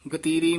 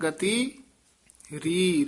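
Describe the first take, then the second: First: The final syllable ree is run into the word. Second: The final syllable ree is said as a separate word. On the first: The speaker calls it wrong. "ਇਸ ਤਰ੍ਹਾਂ ਨਹੀਂ ਬੋਲਣਾ ਹੈ" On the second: The speaker calls it right. "ਰੀ ਪਦ ਸਾਰੇ ਵੱਖਰੇ ਕਹਿਣੇ ਹਨ"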